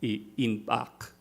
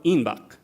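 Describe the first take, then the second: First: Inpak said slowly as a sample word; careful example word. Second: Inbak with a b, said a little louder as the expected form; contrasting example word. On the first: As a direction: say inpak slow and deliberate, a linguistics example. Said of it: "Entonces tenemos pak". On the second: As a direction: give inbak crisply as the form one might expect. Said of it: "lo que hubiéramos esperado". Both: Shown as a demonstration.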